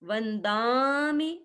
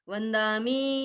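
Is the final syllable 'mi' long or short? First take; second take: short; long. First: The final syllable mi is cut short. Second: The final syllable mi is held long. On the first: The speaker calls it right. "थोड़ा सा दा को लंबा करने से और मी को थोड़ा जल्दी छोड़ने से" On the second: The speaker calls it wrong. "ऐसे नहीं बोलेंगे"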